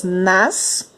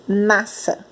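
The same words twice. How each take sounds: First: "nassa" wrongly split as NAS, pause, SA; both S sounded. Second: "nassa" as NA-sa, run together with one s; single S sound. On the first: Teacher shows what we don't say, double S. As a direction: hold an s on each half of "nassa". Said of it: "Nós não falamos". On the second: Teacher shows how we do say it, single S. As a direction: say "nassa" the normal way, unsplit. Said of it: "Nós falamos". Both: Shown as a demonstration.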